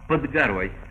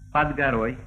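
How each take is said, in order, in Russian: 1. Гласный в «pod» — редуцированная шва. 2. Гласный в «pod» звучит как «а».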